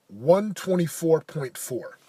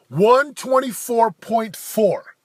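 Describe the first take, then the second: First: Said in the usual way. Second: Slow, louder, higher proud announcement; triumphant repeat. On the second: Real, not acted. Announcing his rowing time to viewers, slow and triumphant. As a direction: savor the number like a victory.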